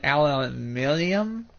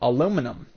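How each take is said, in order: First: It is said with a British pronunciation. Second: It is said with an American pronunciation. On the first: "I think that's how you pronounce it in Britain" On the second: "in America, we call the material aluminum"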